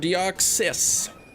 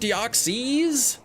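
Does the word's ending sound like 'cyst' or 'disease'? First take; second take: cyst; disease. First: The ending sounds like the word cyst. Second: The ending sounds like the word disease. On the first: "Or like a cyst on your eyelid?" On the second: "Like a disease?"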